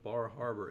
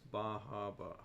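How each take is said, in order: First: The r sounds are pronounced clearly. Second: The r sounds are dropped, Maine style.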